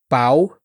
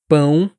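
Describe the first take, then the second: First: The vowel is oral, without nasal resonance. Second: The vowel is nasal, resonating in the nose. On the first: The speaker calls it wrong. "aqui não vibra" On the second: The speaker calls it right. "aqui vibra"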